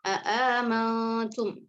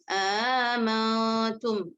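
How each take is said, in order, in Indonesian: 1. Kedua hamzah glotal diucapkan penuh. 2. Hamzah glotal kedua dilunakkan, tidak dipanjangkan. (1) "tahqiq hamzah pertama dan kedua tanpa idghal" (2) "tashil hamzah kedua tanpa idghal dibaca tidak panjang"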